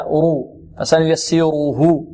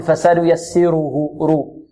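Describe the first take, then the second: First: رو thick and full, then فسنيسره slowly with that heavy ر. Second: فسنيسره with a light, thin رو; faulty light ra in فسنيسره; thinned ra. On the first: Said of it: "التفخيم هكذا". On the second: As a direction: say the رو of فسنيسره flat-tongued and light, as a mistake. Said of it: "هذا ترقيق". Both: Shown as a demonstration.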